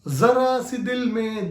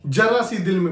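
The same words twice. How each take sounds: First: The first word begins with a 'z' sound. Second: The first word begins with a 'j' sound. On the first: It means a little room in the heart. The speaker calls it right. "जरा मतलब हो गया थोड़ी" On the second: It turns the word into old age. The speaker calls it wrong. "अगर आप इसी को जरा बोल देंगे, जरा हिंदी में बुढ़ापे को भी बोला जाता है"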